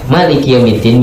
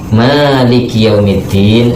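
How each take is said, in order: First: The vowel after the m is short. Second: The vowel after the m is long. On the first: God is the king who reigns over the Day of Judgment. "mimnya pendek" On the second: God owns the affairs of the Day of Judgment. "kalau membacanya panjang"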